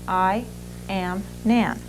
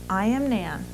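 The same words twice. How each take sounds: First: Each word is said separately with breaks. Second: It flows smoothly as one connected phrase. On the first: The speaker calls it wrong. "the wrong way the second time" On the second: The speaker calls it right. "the right way the first time"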